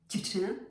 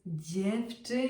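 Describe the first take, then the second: First: The first consonant is short and hard. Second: The first consonant is long and soft. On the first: The speaker calls it wrong. "not dziewczyna" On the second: The speaker calls it right. "It's dziewczyna"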